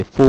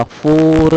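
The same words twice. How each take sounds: First: फो with the r left out, English style; dropped r. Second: फोर with the final r fully sounded; full r. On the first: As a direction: say फो clipped, no final r. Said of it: "चार को फो बोलते". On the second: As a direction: pronounce every sound of फोर, r included. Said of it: "पूरा उच्चारण होगा". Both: Shown as a demonstration.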